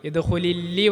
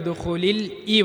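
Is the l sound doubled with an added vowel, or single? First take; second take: doubled; single. First: The l is doubled with an added vowel. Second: The l is single and links onward. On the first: The speaker calls it wrong. "യദ് ഹുലില്ലി പറയരുത്" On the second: The speaker calls it right. "യദ് ഹുലിൽ ഈ പറയണം"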